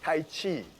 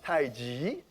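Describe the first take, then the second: First: The second word begins with a 'ch' sound. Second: The second word begins with a 'j' sound. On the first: The speaker calls it wrong. "Sometimes we mispronounce it as Tai Chi" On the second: The speaker calls it right. "it should be pronounced Tai Ji"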